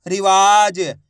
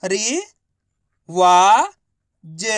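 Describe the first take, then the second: First: Said in the usual way. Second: रि-वा-ज drawn out slowly, each syllable apart; teacher sounding out रि-वा-ज. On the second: Shown as a demonstration. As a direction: sound out रि-वा-ज one syllable at a time. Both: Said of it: "तो मिलके बन जाएगा".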